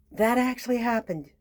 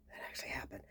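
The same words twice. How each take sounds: First: Said in the usual way. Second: Hushed unvoiced whisper; whispered repeat. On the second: Shown as a demonstration. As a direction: breathe it as a secret.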